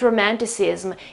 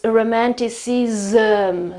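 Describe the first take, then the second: First: The ending is a plain 's' then 'm'. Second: The ending is 'z', a schwa, then 'm'. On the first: The speaker calls it wrong. "It's not romanticism" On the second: The speaker calls it right. "So this zm here makes all the difference"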